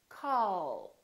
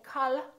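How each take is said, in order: First: The final L is held long and soft. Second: The final L is released quickly. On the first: The speaker calls it right. "we say call" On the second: The speaker calls it wrong. "So we don't say call"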